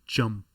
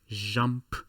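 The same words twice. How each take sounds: First: The J begins with a D-like sound. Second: The J begins without a D-like sound. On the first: The speaker calls it right. "it is jump" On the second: The speaker calls it wrong. "it is not jump"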